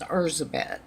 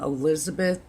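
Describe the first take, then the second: First: The name is pronounced the Hungarian way. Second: The name is pronounced the English way. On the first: "but technically uh, it was" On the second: "that's the pronunciation of it in English"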